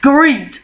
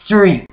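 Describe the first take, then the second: First: The word begins with an 'skr' sound. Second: The word begins with an 'str' sound. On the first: This is how others say it. The speaker calls it wrong. "motherfuckers in universities are saying screet" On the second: This is the standard form. The speaker calls it right. "not street"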